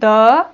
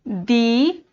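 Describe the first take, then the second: First: The vowel is a short, weak 'uh' sound. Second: The vowel is a long 'ee' sound. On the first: "द को पढ़ लिया, द"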